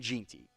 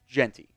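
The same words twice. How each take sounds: First: The first syllable sounds like the word Gene. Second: The first syllable does not sound like Gene. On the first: The speaker calls it wrong. "previous videos I was definitely saying Genty" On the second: The speaker calls it right. "which I believe is how it is supposed to be"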